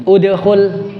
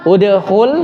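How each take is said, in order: First: Udkhul read out clearly with a falling end; reading out the word. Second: Udkhul with a rising questioning end; asking about the word. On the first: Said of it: "fi'il apa?". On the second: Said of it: "sukun ya". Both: Shown as a demonstration.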